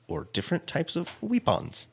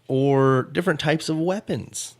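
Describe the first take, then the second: First: Weapons said as "weepons"; long ee in weapons, "WEE-pons", softer; silly pronunciation. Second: Said in the usual way. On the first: Shown as a demonstration. Host repeating the last quiz option, weapons as silly "weepons".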